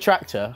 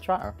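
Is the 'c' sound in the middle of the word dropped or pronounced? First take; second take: pronounced; dropped. First: The middle 'c' sound is clearly pronounced. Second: The middle 'c' sound is dropped. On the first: This is the standard name for the vehicle. "it's a tractor" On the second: This is how a certain group of people says it. "but they call him a tratter"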